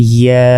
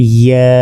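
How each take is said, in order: The two takes are said the same way.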